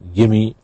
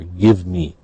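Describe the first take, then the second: First: The words run together into one reduced form. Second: Both words are said fully and separately. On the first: "gimme for give me" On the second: "gimme for give me"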